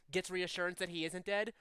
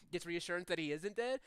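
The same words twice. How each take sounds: The two takes are said the same way.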